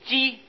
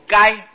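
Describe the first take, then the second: First: The word is pronounced ji. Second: The word is pronounced gai. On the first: It names a kind of grass. "还有一个字念作鸡" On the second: It names an animal. "还有一个字音叫念作该"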